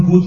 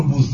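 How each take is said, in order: First: Said in the usual way. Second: بوز ending in z instead of d; old Persian pronunciation. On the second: Shown as a demonstration. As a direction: finish بوز with a z sound.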